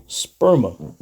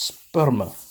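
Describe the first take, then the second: First: Sperma said English-style, first vowel as in "sperm"; English pronunciation. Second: SPERMA said Greek-style, first vowel as in "air"; Greek pronunciation. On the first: Teacher giving listeners the English version, English pronunciation of sperma. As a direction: say sperma as "SPUR-muh". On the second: Teacher echoing the Strong's recording, Greek pronunciation of Sperma. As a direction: say Sperma as "SPAIR-mah". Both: Shown as a demonstration. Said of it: "in English, you would probably say".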